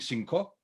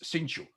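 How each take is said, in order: First: The middle consonant is a hard k sound. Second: The middle consonant is a ch sound. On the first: This is the common form of the word. "She doesn't sing cinco" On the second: This is how it is said in Sarajevo Ladino. "That's the way it's pronounced"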